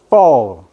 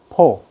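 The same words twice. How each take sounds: First: The word starts with an f sound. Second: The word starts with a p-like sound. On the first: Listeners hear the number four. The speaker calls it right. "아랫입술을 딱 깨물고" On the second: Listeners hear the number two. The speaker calls it wrong. "여러분들 외국인 만나서 포 해봐요"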